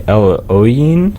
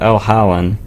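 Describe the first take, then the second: First: The name is said differently from its spelling. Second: The name is said the way it is spelled. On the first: The speaker calls it right. "It's actually El Oyin" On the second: The speaker calls it wrong. "I pronounced the band El Holland, but I recently found out that's not how you say it, even though it's how it looks when you type it out"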